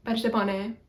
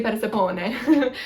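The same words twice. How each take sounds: First: "Persepone" with tapped r and short o; per-seh-PON-ay for "Persepone", short o; Greek pronunciation. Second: "Persepone" with the o held long, per-seh-POH-nay; long O version. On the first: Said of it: "omicron is a short O". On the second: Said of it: "it's not like Oone". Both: Shown as a demonstration.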